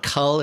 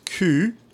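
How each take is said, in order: First: The word is pronounced with English sounds. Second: The word is pronounced with French sounds. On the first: The speaker calls it wrong. "so it's not cul" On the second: The speaker calls it right. "it's cul"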